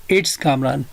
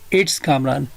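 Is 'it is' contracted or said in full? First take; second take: contracted; contracted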